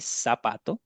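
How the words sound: It is said with a non-Spain Spanish accent. "the rest of Spanish speakers around the world say"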